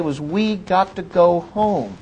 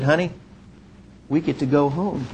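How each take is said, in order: First: Slowed, weighty repeat; slow emphasis. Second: Soft, quiet and tender; tender to wife. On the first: Real, not acted. Preacher to congregation, slow and weighty. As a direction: let each word land slowly. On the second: Retold or imitated. Telling his wife softly they can go home. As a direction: break the good news gently.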